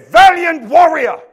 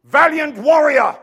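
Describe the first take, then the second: First: Loud, high, slow shout; shouted proclamation. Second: Loud, slow, high proclamation; proclaiming. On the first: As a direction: shout it as the angel's decree. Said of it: "and said". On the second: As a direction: call him out boldly. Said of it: "he says this". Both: Acted.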